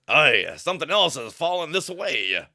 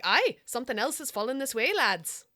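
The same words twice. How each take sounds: First: A hint of pirate in the voice. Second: Lightly put-on Irish lilt; a hint of Irish brogue; Irish accent. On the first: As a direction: read it like a salty pirate. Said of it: "who speaks like a pirate". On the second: Shown as a demonstration. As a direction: try it as an Irish sailor, slightly Scottish. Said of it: "I feel like they've got Irish accents".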